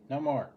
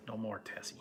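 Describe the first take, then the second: First: Said in the usual way. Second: Unvoiced whisper, No more, Tessie; whispering to the cat. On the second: Real, not acted. Whispering to the cat Tessie to stop, hushed. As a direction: hush the pet without disturbing the call. Hushing the cat while on phone.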